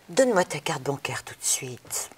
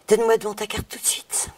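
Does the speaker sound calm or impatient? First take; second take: calm; impatient. First: It is said calmly, without impatience. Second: It is said with growing impatience.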